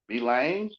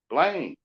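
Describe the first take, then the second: First: The first letter is said as its letter name. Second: The first letter is blended into the word.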